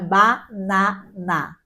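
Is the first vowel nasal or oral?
oral. The vowels are open and oral, German style.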